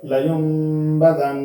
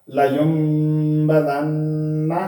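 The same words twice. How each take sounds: First: जन ending in a long held nasal hum; pausal ending. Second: Said in the usual way. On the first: Shown as a demonstration. Teacher keeps the nasal at the stop, जन held long. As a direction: stop on जन, drawing out the "n". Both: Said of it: "आगे वक्फ".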